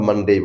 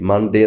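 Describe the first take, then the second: First: The final vowel glides from 'e' to 'ee'. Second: The final vowel is a pure, unchanging 'e'. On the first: The speaker calls it right. "আমরা মানডেই বলব" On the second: The speaker calls it wrong. "মানডে না বলে"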